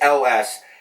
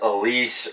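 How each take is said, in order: First: The name sounds like the letters 'L S'. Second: The name sounds like 'Elise'. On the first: The speaker calls it right. "it is L S" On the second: The speaker calls it wrong. "as many people have mispronounced over the years and butchered as Elise"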